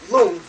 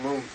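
First: The word is said with a high tone. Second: The word is said with a low tone. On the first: It means wind or psychic energy. "high tone, with a Ra head letter" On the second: It means the word, an oral transmission. "this is a low tone Lung"

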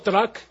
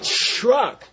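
First: It begins with a plain T before the R. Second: It begins with a CH sound before the R. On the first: "We don't go truck" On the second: "We make a CH sound. We say truck. It's a CHRUK"

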